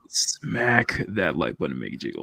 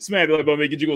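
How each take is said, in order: First: The phrase is said slowly and deliberately. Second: The phrase is rushed through quickly. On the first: The speaker calls it right. "There you go" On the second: The speaker calls it wrong. "when you run through that"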